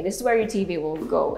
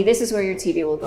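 First: Said in the usual way. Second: Quick teasing throwaway, fast; joking. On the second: Pretend. Host jokingly tells viewers where TV goes, teasing and fast. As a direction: rush it out as a tease you'll take back. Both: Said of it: "I'm just kidding".

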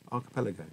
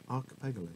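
First: Said in the usual way. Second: "archipelago" garbled as ar-kuh-PEG-a-lo; botched pronunciation. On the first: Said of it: "Is it Ar-, no". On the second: Real, not acted. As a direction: swap the l and g in "archipelago". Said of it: "I feel like I'm saying that wrong".

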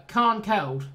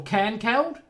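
First: Cairnkeld with a long "ah", like "KAHN-keld"; broad-A pronunciation. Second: Cairnkeld with a short front A, like "CAN-keld"; flat-A pronunciation. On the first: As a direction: say Cairnkeld with a broad open A in the first syllable. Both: Shown as a demonstration. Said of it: "How do you pronounce that".

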